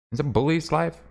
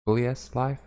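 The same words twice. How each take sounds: First: "Bullies" as one word, BULL-eez; trying a name reading. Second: "Bullies" split as bully-ESS; alternative name reading. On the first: Streamer puzzling over a username, "Bullies" said BULL-eez. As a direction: say "Bullies" like the plural of bully, questioning. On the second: Streamer retrying a username, "Bullies" said bully-ESS. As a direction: end "Bullies" on a spelt-out letter S. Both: Real, not acted.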